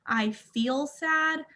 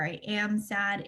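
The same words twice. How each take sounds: First: "feel" drawn out, slow and higher; slow, deliberate model phrase with "feel" held; stress on feel. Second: "am" leaned on and drawn out; slow contrast phrase, weight on "am"; stress on am. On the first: Teaching emotional language, stress on "feel". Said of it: "the language ... is to say". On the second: Showing wording to avoid, stress on "am". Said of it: "It's a very small difference". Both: Shown as a demonstration.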